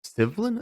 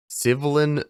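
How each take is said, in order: First: "Civilin" said SIV-lin with a high questioning rise; unsure retry of a name. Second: "Civilin" sounded out as SIV-uh-lin, tentative; "Civilin" as SIV-uh-lin, a falling first guess; first try at a name. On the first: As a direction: ask "Civilin?" as SIV-lin, pitch climbing, doubting. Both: Real, not acted.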